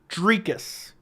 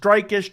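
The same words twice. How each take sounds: First: The first syllable sounds like the word tree. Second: The first syllable does not sound like tree. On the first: The speaker calls it right. "Almost like tree" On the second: The speaker calls it wrong. "you don't have to wonder if it's Dricus"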